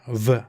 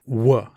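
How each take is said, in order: First: The sound is made with teeth on lip, like v. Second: The sound is made with rounded lips, like w. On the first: The speaker calls it wrong. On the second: The speaker calls it right.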